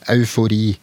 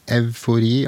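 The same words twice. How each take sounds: First: The word begins with the diphthong 'au'. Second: The word begins with the sound 'ev'. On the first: "nå uttaler jeg det som en diftong, au" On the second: "det har nok like ofte hatt uttalen ev"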